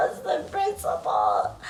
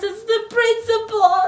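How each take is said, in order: First: Much lower, slow; deep repeat of the principle; deep mock voice. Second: Much higher, loud and sung; sung, belt the line. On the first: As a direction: drop into a deep voice. Low repeat. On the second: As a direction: sing it for emphasis. Sung emphasis. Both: Real, not acted.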